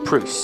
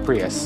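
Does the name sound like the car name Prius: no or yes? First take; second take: no; yes. First: The name does not sound like the car. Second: The name sounds like the car Prius. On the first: The speaker calls it right. "but it's pronounced Preus" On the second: The speaker calls it wrong. "Not Prius. Not like the car"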